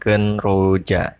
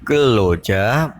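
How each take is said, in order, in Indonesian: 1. Suku kata pertama berakhir dengan bunyi n. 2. Suku kata pertama berakhir dengan bunyi l. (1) "bukan genroja" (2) "dibaca geloja"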